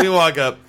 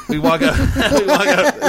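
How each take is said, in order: First: Said in the usual way. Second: Much higher, laughing through the words. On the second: Real, not acted. Telling a friend about the concert, laughing. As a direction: break into laughter as you start the story.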